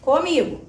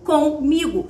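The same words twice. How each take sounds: First: "comigo" run together as a single word; joined as one word. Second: "comigo" split in two, "com" then "migo"; split into parts. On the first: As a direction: say "comigo" whole, no break after "com". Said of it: "Escreve junto aqui". ("comigo" dito junto, numa palavra só) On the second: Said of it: "com preposição mais o migo". ("comigo" separado em duas partes, "com" e "migo") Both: Shown as a demonstration.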